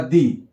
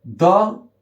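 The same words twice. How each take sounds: First: Strong form दी, pronounced "dee". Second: Weak form द, pronounced "duh". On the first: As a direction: say दी with a long "ee" vowel. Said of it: "strong forms में ये दी". (दी, लंबे "ई" स्वर वाला मज़बूत रूप) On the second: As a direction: say द with a schwa, not "dee". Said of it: "वीक forms में ये द". (द, "अ" स्वर वाला कमज़ोर रूप) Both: Shown as a demonstration.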